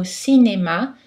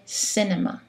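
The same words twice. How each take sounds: First: Cinéma with all three syllables equal in length and force; French even syllables. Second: Cinema with a heavy stress on the first syllable and the others reduced; English pronunciation. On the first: Teacher models the French word for learners, even syllables. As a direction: give each syllable of cinéma the same weight, no stress on the first. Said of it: "il faut préserver l'égalité syllabique". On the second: Teacher contrasts the English word with French, English stress. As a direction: say cinema the English way, CIN-ema. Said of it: "En anglais, c'est différent".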